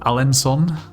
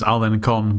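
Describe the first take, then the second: First: The middle consonant is said as an S sound. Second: The middle consonant is said as a K sound. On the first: The speaker calls it right. "it's pronounced as an S" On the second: The speaker calls it wrong. "I thought this was Alencon"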